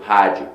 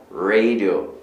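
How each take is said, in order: First: "rádio" as "HA-jiu", Brazilian style; "rádio" in Portuguese, R like an H; Portuguese pronunciation. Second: "radio" as "RAY-dio", growled English R; low "radio" with a held dog-like R; English pronunciation. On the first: Portuguese word set against English. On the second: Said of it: "tem um som meio que de cachorro". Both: Shown as a demonstration.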